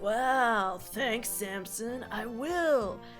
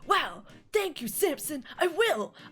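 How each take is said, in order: First: The line is delivered in a sarcastic tone. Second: The line is delivered in an enthusiastic tone. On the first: The speaker calls it wrong. "he kind of sounds sarcastic" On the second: The speaker calls it right. "sound more enthusiastic"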